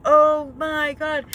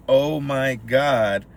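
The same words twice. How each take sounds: First: Stretched-out slow, louder oh my God; slow awed gasp. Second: Slow, stretched oh my God; drawn-out disbelief. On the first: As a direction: drag it out like the crowd. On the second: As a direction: drag it out in shock. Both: Real, not acted.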